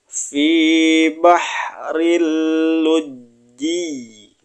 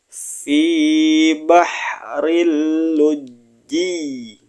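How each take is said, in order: No difference in how they are said.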